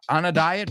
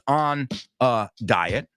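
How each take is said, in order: First: The three words are run together as one. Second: The three words are said separately with breaks. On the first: The speaker calls it right. "va todo junto" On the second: The speaker calls it wrong. "no es on a diet"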